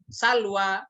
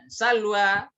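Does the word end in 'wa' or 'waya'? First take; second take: wa; wa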